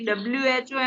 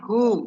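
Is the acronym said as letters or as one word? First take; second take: letters; word. First: It is spelled out letter by letter. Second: It is said as a single word. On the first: The speaker calls it wrong. "એમ નથી બોલતા" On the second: The speaker calls it right. "શબ્દની રીતે એનું ઉચ્ચારણ કરીએ છીએ"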